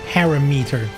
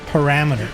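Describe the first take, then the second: First: It is said with a Dutch pronunciation. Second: It is said with an English pronunciation. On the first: "In Dutch you would say parameter" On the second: "in English they're like, you know what? Parameter"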